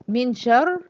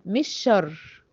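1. يُنطق صوت النون قبل الشين. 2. يُدغم صوت النون في الشين.

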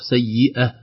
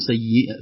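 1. تنتهي الكلمة بلا نون، موقوفة دون غنة. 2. تنتهي الكلمة بصوت النون. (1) "في الوقف" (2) "في الوصل"

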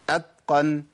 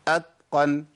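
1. صوت t قريب من d. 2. صوت t قريب من d.

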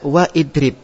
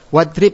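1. Hamzah memisahkan wa dari idrib. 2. Kata-kata itu menyambung tanpa hamzah. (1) "enggak boleh antum baca wa idrib" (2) "hamzah wasol tidak terbaca"

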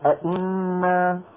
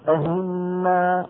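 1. الهمزة الثانية همزة تامة. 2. الهمزة الثانية تصير صوت h. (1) "ولا أئنا" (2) "ليس أهنا"

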